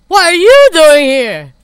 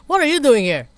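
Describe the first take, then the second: First: Drawn-out booming demand, stress on you; loud slowed voiced line; slow, loud character voice. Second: Said in the usual way.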